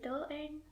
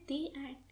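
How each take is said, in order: First: The article is pronounced 'thuh'. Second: The article is pronounced 'thee'. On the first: The speaker calls it wrong. "We don't say the end" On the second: The speaker calls it right. "we say the end"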